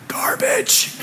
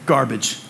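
First: Garbage said unvoiced, breathy and high; whispered garbage. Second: Said in the usual way. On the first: Pastor whispering Garbage to his family in the theatre. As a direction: whisper Garbage like a hushed verdict.

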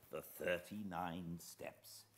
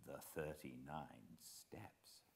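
First: Said in the usual way. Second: The thirty-nine Steps read slowly and softer, thirty-nine stressed, rising at the end; slow title reading. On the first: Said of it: "welcome to a fireside reading". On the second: Acted.

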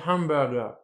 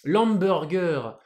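First: «hamburger» à l'anglaise, h soufflé. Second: «L'hamburger» lent, à la française. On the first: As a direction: prononcez «hamburger» en anglais. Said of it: "c'est en anglais hamburger". («hamburger» prononcé à l'anglaise) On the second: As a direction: dites «L'hamburger» comme un Français. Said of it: "c'est pas hamburger". («L'hamburger» lent, à la française) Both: Shown as a demonstration.

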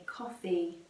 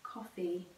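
First: Coffee said as KAW-fee, open aw vowel, stress on the first syllable; teacher modelling coffee as KAW-fee; English pronunciation. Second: Coffee echoed softly as KAW-fee, stress on the first syllable; gentle echo of Coffee as KAW-fee; soft repeat of the pronunciation. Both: Shown as a demonstration. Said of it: "a pronúncia dessa palavra café em inglês é coffee".

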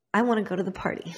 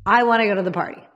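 First: Put-on eager teen voice. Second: Put-on insistent teen voice. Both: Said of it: "'cause I'm an idiot".

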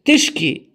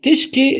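First: Said in the usual way. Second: تشكي said high and clear; emphasised word. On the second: Shown as a demonstration. Teacher repeats تشكي for learners, pitched high. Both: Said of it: "it means you complain".

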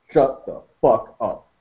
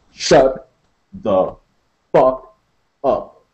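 First: Slow, level, cold; slow and even. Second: "Shut" "the" "fuck" "up" as four separate commands, paused; word by word. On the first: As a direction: say it evenly and slow. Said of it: "slowly. and evenly". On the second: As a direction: space out "Shut" "the" "fuck" "up" like orders. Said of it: "a space between each word". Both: Acted.

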